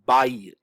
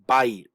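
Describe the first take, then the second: First: The vowels glide together into one syllable. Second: The vowels glide together into one syllable.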